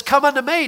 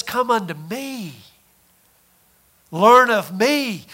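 First: Said in the usual way. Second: A hushed, slow invitation; inner voice. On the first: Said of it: "you hear the voice that says". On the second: Acted. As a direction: call them gently, like a voice inside. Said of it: "You hear a voice inside that says".

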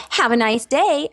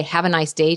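First: High, over-cheery false greeting; mock American cheeriness. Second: Said in the usual way. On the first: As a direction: chirp it like a fake-friendly American. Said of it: "Europeans will make fun of Americans". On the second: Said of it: "someone in a false attitude say".

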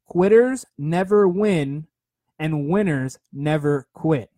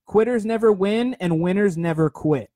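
First: Each word spaced out slowly, like a creed; slow, deliberate motto. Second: Said in the usual way. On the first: Shown as a demonstration. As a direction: drive it home word by word, slowly. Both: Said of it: "Write that one down".

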